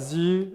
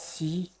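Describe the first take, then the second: First: It is pronounced the Luxembourgish way. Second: It is pronounced the French way. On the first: "ils existent aussi en luxembourgeois" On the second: "alors je vais dire en français peut-être"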